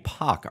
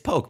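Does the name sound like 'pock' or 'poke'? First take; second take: pock; poke. First: The name has a short vowel, like 'pock'. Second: The name has a long vowel, like 'poke'. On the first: Someone else mispronounced the name. The speaker calls it wrong. "he called me Poc" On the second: The name is said the intended way. The speaker calls it right. "It's Poke, buddy"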